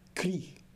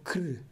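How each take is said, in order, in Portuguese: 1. A vogal é pronunciada com som de i. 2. A vogal é omitida por completo. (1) "e não cri" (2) "ou cr"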